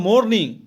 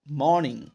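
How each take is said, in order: First: मॉर्निंग with a sounded r, "mor-ning"; common mispronunciation of morning. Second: मॉर्निंग with silent r, "maw-ning"; correct morning pronunciation. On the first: Teacher showing how learners say it, r-heavy मॉर्निंग. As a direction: hit the r in मॉर्निंग. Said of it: "हम लोग बोलते हैं". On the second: Teacher correcting the learners' error, r-less मॉर्निंग. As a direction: drop the r in मॉर्निंग, open vowel. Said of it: "हम लोग बोलते हैं मॉर्निंग". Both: Shown as a demonstration.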